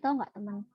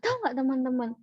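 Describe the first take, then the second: First: It is said flatly, with little pitch movement. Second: It is said lively, with varied pitch and stress. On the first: The speaker calls it wrong. "Datar banget kan?" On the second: The speaker calls it right. "ada intonasinya gitu atau penekanan tiap katanya"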